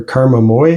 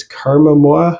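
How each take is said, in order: First: Moi said as "moy"; alternative pronunciation. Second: Moi said as "mwah"; French-style pronunciation. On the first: Reviewer offering another guess at the band name, Moi as "moy". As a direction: say Karma Moi with Moi rhyming with boy. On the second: Reviewer trying a band name he's unsure of, Moi as "mwah". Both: Shown as a demonstration. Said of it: "not sure how to pronounce it".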